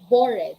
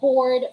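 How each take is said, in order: First: The ending is a separate extra syllable. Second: The ending joins the word without extra syllable. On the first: The speaker calls it wrong. "We don't say bored" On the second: The speaker calls it right. "We just say bored"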